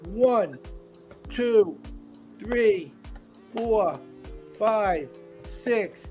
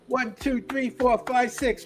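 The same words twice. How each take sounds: First: The count is said slowly. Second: The count is said as fast as possible.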